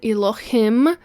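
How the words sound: It is said with a Hebrew-style pronunciation. "I tend to say it with the accent"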